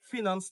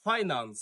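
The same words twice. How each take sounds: First: "ফিনান্স" said fi-nans; short i in the first syllable of "ফিনান্স"; common mispronunciation. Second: "ফাইন্যান্স" said FAI-nans; correct pronunciation. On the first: Teacher repeats what to avoid, "ফিনান্স" mispronounced with short i. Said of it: "ফিনান্স না". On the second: Teacher repeats "ফাইন্যান্স" correctly as FAI-nans. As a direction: eye sound opening "ফাইন্যান্স", falling tune. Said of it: "ওয়ার্ডটি হচ্ছে". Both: Shown as a demonstration.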